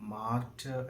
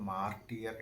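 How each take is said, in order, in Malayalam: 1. വാക്ക് ചെറിയ 'ter' ശബ്ദത്തിലാണ് അവസാനിക്കുന്നത്. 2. വാക്ക് നീട്ടിയ 'tee-er' ശബ്ദത്തിലാണ് അവസാനിക്കുന്നത്. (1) "നമ്മൾ അത് മാർട്ടർ എന്നാണ് വായിക്കേണ്ടത്" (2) "പലരും മാർട്ടിയർ എന്ന് വായിച്ച് കേൾക്കാറുണ്ട്"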